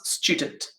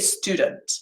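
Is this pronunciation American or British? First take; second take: British; American. First: It is said in a British accent. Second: It is said in an American accent. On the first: "you actually have a ch sound" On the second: "they'd say student"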